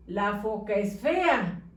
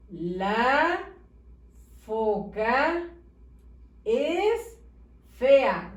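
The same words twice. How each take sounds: First: "La foca es fea" read without gaps between words; run together. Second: "La foca es fea" with a long pause after each word. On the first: Teacher reads badly spaced sentence to pupils, "La foca es fea" run together. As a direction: read "La foca es fea" as one joined-up phrase. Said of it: "¿Se entiende lo que dice?". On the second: Teacher shows pupils how it should read, "La foca es fea" word by word. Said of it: "Debe de decir". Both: Shown as a demonstration.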